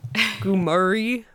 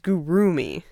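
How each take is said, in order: First: The m sound comes before the r sound. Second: The r sound comes before the m sound. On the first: The speaker calls it wrong. "Like they switch the R and the M" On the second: The speaker calls it right. "but it's Gurumi"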